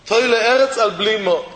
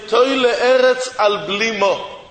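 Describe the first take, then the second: First: Said in the usual way. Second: "Toy le'eretz al blimo" drawn out slowly, each word weighted; slow quoted saying. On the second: Shown as a demonstration. Rabbi quoting Chazal, each word of "Toy le'eretz al blimo" slow.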